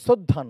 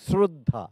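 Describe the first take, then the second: First: The start lacks the clear palatal 'shr' cluster. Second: The start has a clear palatal 'shr' cluster. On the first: The speaker calls it wrong. "নয়" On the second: The speaker calls it right. "তালিবস্য রফলা শ্রদ্ধা"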